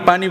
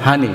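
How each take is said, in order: First: The word begins with a p sound. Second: The word begins with an h sound. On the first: This is how the speaker's own community says it. "আমরা বিভিন্ন পানিরে কি পানি বলি" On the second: This is how people of another region say it. "তারা পানিরে বলে কি হানি"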